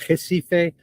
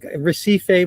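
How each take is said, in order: First: It is said with a Portuguese-style pronunciation. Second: It is said with an English-style pronunciation. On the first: The speaker calls it right. "but it's Recife" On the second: The speaker calls it wrong. "we would say"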